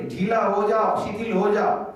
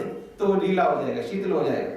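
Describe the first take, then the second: First: Slow, soothing "ढीला हो जाओ" spoken to the belly; gentle inner command. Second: Said in the usual way. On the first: Shown as a demonstration. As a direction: coax the belly to relax, slowly. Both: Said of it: "पेट को कहना है मन से".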